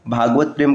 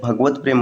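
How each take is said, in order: First: भागवत प्रेम with long "bhaa"; wrong form. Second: भगवत प्रेम with short "bha"; correct form. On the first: Teacher citing the rejected form, long "bhaa" in भागवत प्रेम. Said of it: "कहना अशुद्ध होता है". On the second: Teacher giving the correct form, short "bha" in भगवत प्रेम. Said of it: "भगवत प्रेम होता है". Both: Shown as a demonstration.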